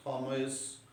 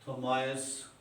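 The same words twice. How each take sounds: First: थॉमस said as THO-mess, ending in s; alternative pronunciation. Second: थॉमस said as tho-MAISE, rhyming with mice; alternative pronunciation. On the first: Lecturer offering another possible reading, थॉमस with an "ess" ending. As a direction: use an "eh" vowel before the s in थॉमस. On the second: Lecturer offering a possible reading, थॉमस with an "eye-s" ending. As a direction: glide to an "eye" vowel before the s in थॉमस. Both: Shown as a demonstration. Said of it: "हो सकता है".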